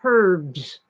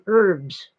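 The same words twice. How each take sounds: First: The word begins with a clear H sound. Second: The word begins without any H sound. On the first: This is how the British say it. "British call them herbs" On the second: This is how Americans say it. "We call them herbs"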